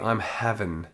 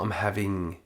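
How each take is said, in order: First: The ending is said as 'in' without g. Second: The ending is said fully with the g sound. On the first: The speaker calls it right. "would be I'm having" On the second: The speaker calls it wrong. "not I'm having"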